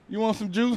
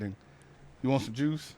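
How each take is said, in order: First: It is said in a weak voice without bass. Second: It is said in a deep, confident voice.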